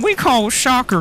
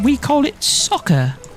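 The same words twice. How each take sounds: First: It is spoken in an American-sounding accent. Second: It is spoken in a British-sounding accent. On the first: "I was trying to go American" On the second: "I don't know why I've turned British"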